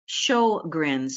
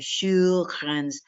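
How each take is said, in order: First: The name is said with an English pronunciation. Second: The name is said with a Swedish-like pronunciation. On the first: "in English, we seem to pronounce it as" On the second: "It's more like a Sjogren's, which I can't say very well"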